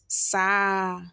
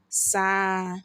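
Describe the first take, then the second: First: The R sound is dropped entirely. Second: The R sound is dropped entirely.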